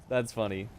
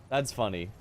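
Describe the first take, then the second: Both takes have the same delivery.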